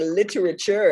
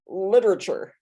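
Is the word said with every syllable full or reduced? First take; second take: full; reduced. First: Every syllable is pronounced clearly and fully. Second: Some syllables are squeezed together and dropped. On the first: It sounds fancy and educated. "I say all the syllables in the word" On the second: It sounds like everyday Midwestern speech. "instead of"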